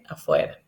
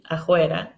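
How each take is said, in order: First: The f is said with lips and teeth. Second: The f is said as a breathy h.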